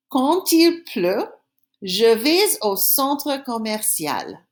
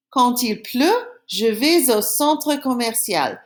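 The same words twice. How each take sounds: First: Slow, carefully spaced French for pupils; teacher modelling a sentence slowly to copy; slow repeat-after-me. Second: Said in the usual way. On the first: Shown as a demonstration. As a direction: lay it out slowly so they can echo. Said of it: "I'm gonna say the sentence again, then I want you to say it after me". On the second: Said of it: "I'm gonna say the sentence again".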